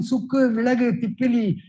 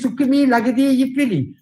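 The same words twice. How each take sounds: First: "Sukku, Milagu, Tippili" grouped as three whole words; correct word stops. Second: "Sukku, Mi, Lagadi, Ippili" broken inside the words; misplaced stops. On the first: Voice teacher showing how the line should be asked, stops between whole words. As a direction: break only after Sukku, after Milagu and after Tippili. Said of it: "does not know his stops". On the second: Voice teacher mimicking a fellow who ignores stops, wrongly chopped words. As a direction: split it wrongly after Mi and before Ippili. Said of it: "This fellow does not know his stops".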